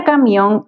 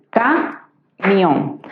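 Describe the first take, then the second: First: Said in the usual way. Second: "camión" split in two, ca, mión, with a clear gap; syllable by syllable. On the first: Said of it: "si nosotros la separamos en sílabas". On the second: Shown as a demonstration. Teacher separating a word for students, "camión" syllable by syllable. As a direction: break "camión" slowly into ca... mión. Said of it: "la separamos en sílabas sería".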